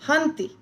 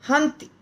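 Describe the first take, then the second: The two takes are said the same way.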